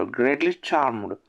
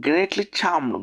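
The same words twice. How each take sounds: First: Slow repeat. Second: Said in the usual way. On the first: Shown as a demonstration. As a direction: stretch it out so learners catch it. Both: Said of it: "teacher repeats phrase for learners".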